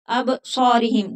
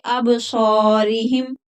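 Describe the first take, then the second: First: Said in the usual way. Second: अब सॉरीहिम with a long full सॉ, slow; stretched alif. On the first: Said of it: "जल्दी से नहीं पढ़ेंगे". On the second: Shown as a demonstration. Teacher giving the correct slow अब सॉरीहिम. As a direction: stretch सॉ a little. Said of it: "अलिफ मद्दा खींच कर पढ़ेंगे".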